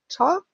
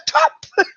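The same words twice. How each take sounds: First: It is said in a doubtful, hesitant way. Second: It is said in a delighted, excited way. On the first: The trainer is unsure whether the behaviour deserves a reward. "soll ich oder soll ich nicht, dann hört sich das dann nicht mehr so an" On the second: The behaviour was especially good. "wenn es besonders schön wäre"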